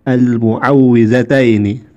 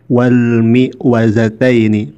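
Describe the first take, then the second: First: The word starts with mu and a doubled w. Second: The word starts with mi and no doubled w. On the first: The speaker calls it right. "padahal yang betul adalah" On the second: The speaker calls it wrong. "barusan Brotos ini mengatakan"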